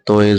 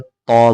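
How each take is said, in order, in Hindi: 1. यह उर्दू लहजे में बोला गया है, 'oy' से खत्म होता है। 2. यह अरबी लहजे में बोला गया है, 'oy' के बिना। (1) "ये उर्दू एक्सेंट यानी उर्दू लहजे में बोलते हैं" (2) "अरबी में तोय नहीं बल्कि तौ बोलते हैं"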